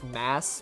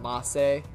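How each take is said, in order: First: It is one syllable with a silent ending. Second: It is two syllables with a sounded final vowel. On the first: "unless it's just mass" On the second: "that E with the accent means it's like masse"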